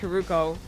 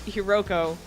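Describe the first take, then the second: First: The middle vowel of the name is 'u'. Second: The middle vowel of the name is 'o'. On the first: The speaker calls it right. "even though I know it's Hiruko" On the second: The speaker calls it wrong. "I'm gonna pronounce it as Hiroko"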